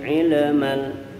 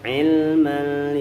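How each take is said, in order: First: The l is bounced with an echoing release. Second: The l is joined smoothly into the m. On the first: The speaker calls it wrong. "jangan sampai ilmal. Ilmal itu qalqalah lam enggak ada" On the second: The speaker calls it right. "il tempel"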